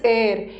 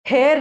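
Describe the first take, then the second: First: The word starts with a vowel, no h. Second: The word starts with an h sound. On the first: The speaker calls it right. "इसका pronunciation is एयर" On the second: The speaker calls it wrong. "इसका pronunciation हेयर नहीं है"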